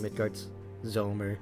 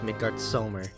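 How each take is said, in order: First: The name is said with a Z sound. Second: The name is said with an S sound. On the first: The speaker calls it wrong. "pronounce it Midgard Zoma. Like, sounds fucking gross just saying it" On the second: The speaker calls it right. "they always refer to him as"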